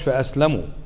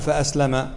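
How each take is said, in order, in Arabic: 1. تنتهي الكلمة بالحركة 'u'. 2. تنتهي الكلمة بالحركة 'a'. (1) "فأسلموا، لكن وقف على ساكن، يعني أسلموا من شره" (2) "أي هو دخل الإسلام"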